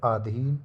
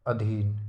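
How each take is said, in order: First: Long aa opening आधीन; wrong form. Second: Short a opening अधीन; correct form. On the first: Teacher showing the wrong word, long aa in आधीन. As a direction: stretch the first vowel of आधीन to aa. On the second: Teacher giving the right word, short a in अधीन. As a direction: keep the first vowel of अधीन short. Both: Shown as a demonstration. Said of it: "आधा ना होगा".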